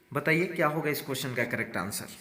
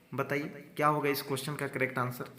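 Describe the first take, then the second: The two takes are said the same way.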